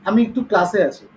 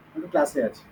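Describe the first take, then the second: First: Said in the usual way. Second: Hushed so the class won't hear; whispering on the phone. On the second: Real, not acted. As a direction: drop to a low hush into the phone. Teacher answers phone during class.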